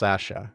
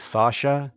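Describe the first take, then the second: First: The name is said the British way. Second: The name is said the American way. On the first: "in England and here in Canada, it's pronounced Sasha" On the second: "I know Americans say Sasha"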